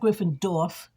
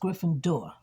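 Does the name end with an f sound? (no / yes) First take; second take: yes; no. First: The name ends with an added f sound. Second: The name ends on the r sound, no f. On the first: The speaker calls it wrong. "I thought it was Gryffindorf, but it's not Gryffindorf" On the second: The speaker calls it right. "It's Gryffindor"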